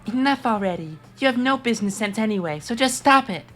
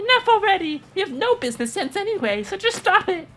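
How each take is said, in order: First: A quieter, toned-down Nonali voice. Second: An exaggerated Monami voice, like Monokuma's.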